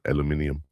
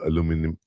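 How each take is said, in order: First: It is said with five syllables, English style. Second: It is said with four syllables, American style.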